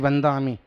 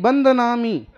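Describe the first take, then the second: First: The word is said with three syllables. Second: The word is said with four syllables. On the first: This is how the listeners themselves say it. "माताजी बंदामी तो तुम बोलते हो" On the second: This is how a Bundelkhandi speaker says it. "Bundelkhandi कोई बोले ना"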